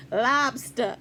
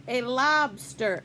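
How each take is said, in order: First: Maine "Lobster." dropping the r, lahbstah; Maine accent. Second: "A lobster." said with a plain American r; ordinary "lobster" with the r sounded. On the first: Shown as a demonstration. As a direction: try the Maine way: "Lobster." without the r. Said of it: "Say it the way they say it in Maine". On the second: Retold or imitated. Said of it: "And she said".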